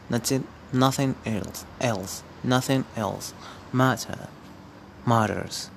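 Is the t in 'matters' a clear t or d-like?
clear t. It is said without an American accent.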